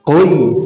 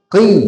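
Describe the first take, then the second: First: The syllable is said heavy and thick. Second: The syllable is said thin and light. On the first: The speaker calls it wrong. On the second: The speaker calls it right. "ketika kasroh dibaca tipis"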